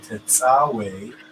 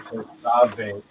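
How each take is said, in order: First: The consonant before the last vowel is a W. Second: The consonant before the last vowel is a V. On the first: This is how our community pronounces it. The speaker calls it right. "that's how we pronounce it" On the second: This is how other people pronounce it. The speaker calls it wrong. "They say Tetzave"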